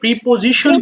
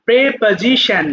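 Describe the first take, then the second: First: The first syllable is said as 'pree'. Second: The first syllable is said as 'preh'. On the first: The speaker calls it wrong. "আমরা যদিও প্রিপোজিশন বলি" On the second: The speaker calls it right. "তখন প্রে হয়ে যায়"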